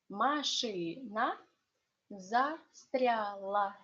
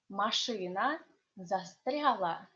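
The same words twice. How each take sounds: First: It is said slowly. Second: It is said fast.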